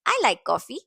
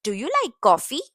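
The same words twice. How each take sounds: First: "I like coffee." settling down at coffee; falling statement tune. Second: "Do you like coffee?" lifting up at coffee; rising question tune. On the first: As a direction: drop the pitch on "coffee.". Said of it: "falling intonation for statements". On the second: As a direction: let the voice climb on "coffee?". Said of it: "Use rising intonation for questions". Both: Shown as a demonstration.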